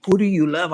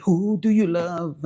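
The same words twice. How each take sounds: First: Said in the usual way. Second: Slow, drawn-out rapper hook. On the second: Retold or imitated. Rapper's question quoted to viewers, slow drawl. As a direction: stretch it like a rap refrain.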